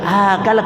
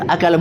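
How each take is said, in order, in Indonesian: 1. Salah satu vokalnya dipanjangkan. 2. Semua vokalnya pendek. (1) "bukan akala, karena kalau akala lain lagi artinya" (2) "akala itu akala"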